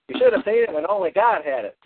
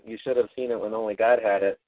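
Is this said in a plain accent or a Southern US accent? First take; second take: Southern US; plain. First: It is said in a Southern US farmer accent. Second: It is said in the speaker's ordinary accent.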